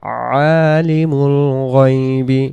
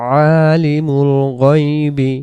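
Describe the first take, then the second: Both takes have the same delivery.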